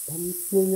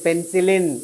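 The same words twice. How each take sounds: First: The word is said quietly and weakly. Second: The word is said loudly and firmly. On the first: The speaker calls it wrong. "అలా చెప్పకూడదు" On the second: The speaker calls it right. "అలా మనం చెప్పినట్టు ఉండాలన్నమాట"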